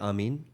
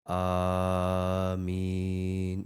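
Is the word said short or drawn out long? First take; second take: short; long. First: The word is said short and clipped. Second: The word is drawn out long. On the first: The speaker calls it wrong. "we don't say Amin" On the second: The speaker calls it right. "we say Amin, you know, and it's it's it's long"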